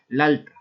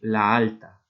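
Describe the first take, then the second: First: The two a vowels merge into one syllable. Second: The two a vowels stay in separate syllables. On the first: The speaker calls it wrong. "no podemos hacer la alta" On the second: The speaker calls it right. "romper la sinalefa y decir la alta"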